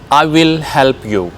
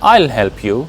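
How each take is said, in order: First: "I will" is said as two full words. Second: "I will" is shortened into one syllable.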